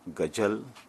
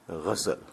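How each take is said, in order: First: The word begins with a plain g sound. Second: The word begins with a guttural gh sound. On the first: The speaker calls it wrong. "It is not gajal" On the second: The speaker calls it right.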